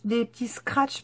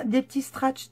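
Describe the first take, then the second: First: Said in the usual way. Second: «scratch» dit avec un T à la place du K, «stratch»; mot écorché. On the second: Real, not acted. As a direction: fourcher sur «scratch» en disant «stratch». («scratch» écorché en «stratch») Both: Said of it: "pardon, comme ça".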